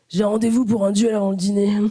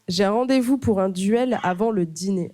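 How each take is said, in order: First: It is read in a put-on character voice. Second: It is read in the speaker's natural voice.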